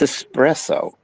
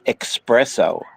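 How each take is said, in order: First: It starts with an 'ess' sound. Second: It starts with an 'ex' sound. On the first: The speaker calls it right. "There's no X in there. It's espresso" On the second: The speaker calls it wrong. "they call it espresso stands, but it's not"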